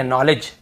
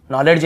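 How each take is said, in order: First: Said in the usual way. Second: नॉलेज said as "noled-j", hard D before the J; D sounded. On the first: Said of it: "डी भी silent है". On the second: Shown as a demonstration. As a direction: voice the silent D in नॉलेज. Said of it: "नॉलेज नहीं है".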